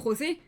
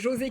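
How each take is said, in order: First: The name is pronounced with a Spanish reading. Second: The name is pronounced with a French reading. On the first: The speaker calls it wrong. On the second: The speaker calls it right.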